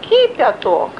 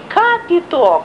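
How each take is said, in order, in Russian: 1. Первый гласный звучит как 'i'. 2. Первый гласный звучит как 'a'. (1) "а кипяток" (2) "не капиток"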